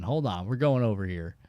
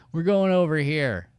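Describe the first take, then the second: First: Said in the usual way. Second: Repeated louder and higher, insisting. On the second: Real, not acted. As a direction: call it out again so they follow. Repeats the direction more forcefully.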